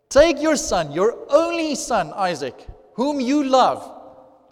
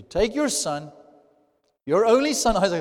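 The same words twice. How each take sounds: First: "only" punched higher and louder, "whom you love" drawn out slowly; heavy emphasis. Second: "only son" stressed, a little raised; emphasis on only son. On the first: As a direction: hammer "your only son" and stretch "whom you love". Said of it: "to emphasize it even more". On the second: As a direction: lean on "your only son". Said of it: "emphasizing that fact". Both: Shown as a demonstration.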